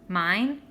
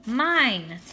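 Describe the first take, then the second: First: Mine? asked with a rising tune; hopeful question. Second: Mine! louder with a falling, certain tune; joyful recognition. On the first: Hoping his name is called. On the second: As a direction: land Mine! firmly, louder and sure. Recognizes his mother's voice. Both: A narrator's reading.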